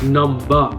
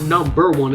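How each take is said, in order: First: It is said in an English accent. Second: It is said in the speaker's plain accent. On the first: The speaker calls it right. "Because he had an accent" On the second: The speaker calls it wrong. "it's not number one"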